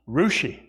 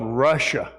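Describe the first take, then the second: First: The name ends in an 'ee' sound. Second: The name ends in an 'ah' sound. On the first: "but it's pronounced Rushi" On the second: "There's actually a place called Russia"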